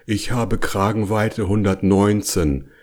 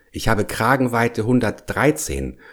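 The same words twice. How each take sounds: First: Understated resigned bear grumble; resigned growl. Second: Higher-voiced bear stating his collar size; fussy explanation. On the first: Bigger bear declining to try the hole, grumbling resignedly. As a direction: grumble it evenly, giving in. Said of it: "schüttelte den Kopf und brummte". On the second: Bear telling his friend why his head won't fit, explaining. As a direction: explain it in a raised character voice. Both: A narrator's reading.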